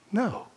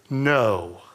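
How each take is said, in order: First: It is said quietly and sheepishly. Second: It is said loudest of all.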